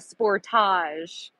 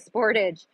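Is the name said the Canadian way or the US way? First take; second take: Canadian; US. First: The name is said the Canadian way. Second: The name is said the usual US way.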